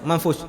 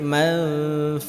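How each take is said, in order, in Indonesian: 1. Bunyi sh di akhir dihentikan tiba-tiba. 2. Bunyi sh di akhir mengalir terus dan ditahan. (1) "Jangan putus" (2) "harus berjalan"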